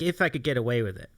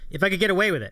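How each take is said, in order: First: It is said in his normal voice. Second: It is said in an Elmo voice.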